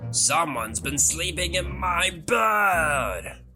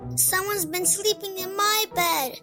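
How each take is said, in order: First: It is said in a deep, roaring voice. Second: It is said in a high, squeaky voice.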